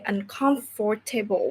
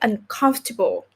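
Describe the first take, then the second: First: The middle syllable is said fully and clearly. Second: The middle syllable is very light, almost silent. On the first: The speaker calls it wrong. "we don't say uncomfortable" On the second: The speaker calls it right. "very light, like almost silent"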